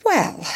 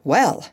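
First: High, drawn-out falling well; pointed, high-pitched opener; challenging. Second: Resigned, understated opener; mildly tired well; weary. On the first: Bumpo taunts Polynesia about beetle. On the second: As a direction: sigh it out as if worn out, without lifting the pitch. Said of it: "sitting down wearily". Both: A narrator's reading.

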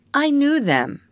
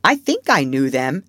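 First: Put-on high, sing-out childish boast; annoying boast. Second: Put-on hesitant child, unsure of his memory; rather doubtful. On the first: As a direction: needle the others with it. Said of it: "to annoy the others". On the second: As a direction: say it as if not quite sure. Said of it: "rather doubtfully".

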